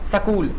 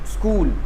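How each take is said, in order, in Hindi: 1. एक छोटा स्वर s और k को अलग करता है। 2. s सीधे k से जुड़ जाता है। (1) "अब देखो मैं स लगा के पढ़ता हूँ।" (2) "आधा स लगा क्या पढ़ता है?"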